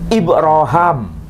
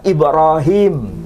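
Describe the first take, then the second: First: The name ends with the syllable 'ham'. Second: The name ends with the syllable 'him'. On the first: This is the form found in a different reading tradition. "tapi Ibrahim" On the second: This is the commonly read form. "Bukan terbaca Ibrahim"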